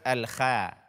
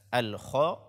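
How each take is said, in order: First: The kh sound is thin and light. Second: The kh sound is thick and heavy. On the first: The speaker calls it wrong. "bukan al-kha" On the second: The speaker calls it right. "sempurnakanlah ketebalan pada huruf kho ini"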